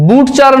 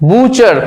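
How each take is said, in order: First: বুটচার with a separate t before ch; wrong pronunciation. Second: বুচার with the t silent; correct pronunciation. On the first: Teacher showing what not to say, বুটচার with sounded t. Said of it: "নয়". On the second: Teacher correcting butcher for students, বুচার with silent t. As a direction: say বুচার, vowel straight into ch. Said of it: "টি উচ্চারণই হচ্ছে না". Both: Shown as a demonstration.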